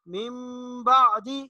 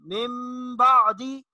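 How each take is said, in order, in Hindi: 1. b से पहले नासिका वाली म की आवाज़ है। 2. b से पहले नासिका वाली म की आवाज़ है।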